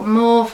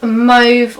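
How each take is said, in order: First: "Mauve" with an open AW vowel, like "mawv"; alternative pronunciation. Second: "Mauve" with a long O, rhyming with "stove"; alternative pronunciation. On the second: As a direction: say "Mauve" as "mohv". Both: Shown as a demonstration. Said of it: "however you say it".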